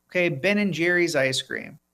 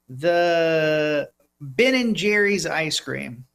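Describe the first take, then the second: First: Said in the usual way. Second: Drawn out, slow announcement; slow reveal. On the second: Real, not acted. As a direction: stretch it out for suspense.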